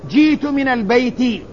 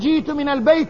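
First: The last word ends with an 'i' vowel. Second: The last word does not end with an 'i' vowel. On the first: The speaker calls it right. "تقول جيت من البيت" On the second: The speaker calls it wrong. "لا تقول جيت من البيت"

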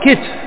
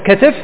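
First: First vowel i, no vowel before the last consonant. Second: Open first vowel, then i before the last consonant. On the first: "وإما أن تكسره" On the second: "اللي هي الأولى فعل"

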